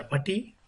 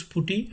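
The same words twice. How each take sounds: First: Putty rhyming with "nutty"; second pronunciation variant. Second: Putty with an oo, as in "put"; first pronunciation variant. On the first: Teacher offering students the other way to say the tool's name, putty with an uh. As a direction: say putty as "PUH-tee". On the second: Teacher offering students one way to say the tool's name, putty with an oo. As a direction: say putty as "POO-tee". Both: Shown as a demonstration. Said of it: "You use putty or putty".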